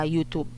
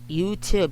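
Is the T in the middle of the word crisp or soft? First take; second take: soft; crisp. First: The middle T is soft, not popped. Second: The middle T is popped crisply. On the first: The speaker calls it wrong. "it's very, very, very, very wrong" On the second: The speaker calls it right. "You have to pop the T"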